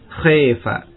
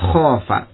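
First: The long vowel is tilted toward 'e'. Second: The long vowel is a plain open 'a'. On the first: "Maka boleh dimalahkan, ... Boleh khaifa" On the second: "contoh khafa"

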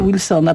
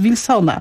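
First: The name starts with an English w sound. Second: The name starts with a Polish v sound. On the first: This is the form that keeps the original pronunciation. The speaker calls it wrong. "nie Wilsona" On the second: This is the older, Polonized form of the name. The speaker calls it right. "plac w Warszawie to jest Wilsona"

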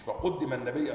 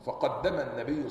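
First: The verb is said as passive 'quddima'. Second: The verb is said as active 'qaddama'. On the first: The Prophet was given precedence by another. The speaker calls it wrong. "مش فقدم النبي" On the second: The Prophet himself gave precedence. The speaker calls it right. "فقدم الصواب فقدم النبي صلى الله عليه وسلم"

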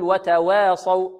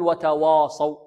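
First: The vowel after w is tilted toward e. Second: The w and its vowel sound heavy and thick. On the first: "لا نقللها ولا نميلها، لا نقول وتواصوا" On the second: "لا نقول وتواصوا، وتوا هذا خطأ"

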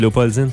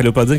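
First: The word is said slowly. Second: The word is said quickly. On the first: "Quand tu dis lentement" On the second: "Si tu dis vite"

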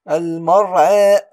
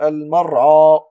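First: The final vowel leans slightly toward 'ee'. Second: The final vowel is a plain open 'a'. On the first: The speaker calls it right. "أميل بها هنا إمالة صغرى" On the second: The speaker calls it wrong. "ولم أقول المرعى"

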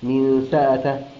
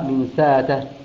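The two takes are said the same way.

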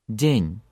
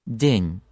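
No difference in how they are said.

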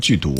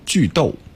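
First: The second syllable is pronounced du. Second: The second syllable is pronounced dou. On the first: The speaker calls it wrong. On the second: The speaker calls it right.

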